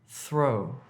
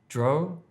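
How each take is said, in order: First: The word begins with a th sound. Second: The word begins with a d sound. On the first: The speaker calls it right. "if you're trying to say throw" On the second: The speaker calls it wrong. "Don't say dro"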